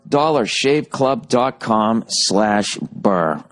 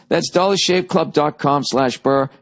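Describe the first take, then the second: First: Slow, spelled-out web address; slow URL read. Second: Said in the usual way. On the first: Shown as a demonstration. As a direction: read the address slowly for listeners. URL repeated slowly.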